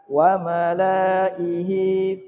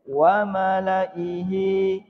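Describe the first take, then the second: First: The vowel in 'la' is held long. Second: The vowel in 'la' is kept short. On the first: The speaker calls it wrong. "bukan wa malaihi fastakbaru, bukan" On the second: The speaker calls it right. "tetapi dibaca pen pendek"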